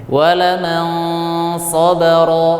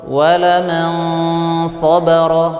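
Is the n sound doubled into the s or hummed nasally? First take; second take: nasal hum; nasal hum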